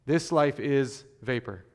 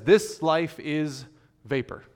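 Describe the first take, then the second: First: This life is vapor restated firmly, stress on life; firm repeat with a falling end; weighty restatement. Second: This life is drawn out slowly, pause before vapor; slow and weighty, a pause before vapor; slow solemn quote. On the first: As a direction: restate it plainly, leaning on life. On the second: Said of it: "where the preacher says". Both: Shown as a demonstration.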